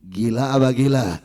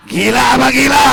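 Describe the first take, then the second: First: Said in the usual way. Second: Loud, hit GILA hard; shouted question. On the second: Shown as a demonstration. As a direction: hurl the question at the crowd. Preacher repeats question, then shouts. (pertanyaan diteriakkan keras)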